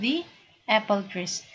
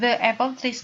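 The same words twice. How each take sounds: First: The word 'the' has a long 'ee' vowel. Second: The word 'the' has a short 'uh' vowel. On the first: The speaker calls it right. "dia menjadi i bacanya the" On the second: The speaker calls it wrong. "bukan the apple trees biasanya"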